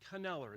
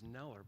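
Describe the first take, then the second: First: The initial K is pronounced. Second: The initial K is silent. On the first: The speaker calls it right. "but it's actually Kneller" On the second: The speaker calls it wrong. "you would think, like I thought, that it was Neller"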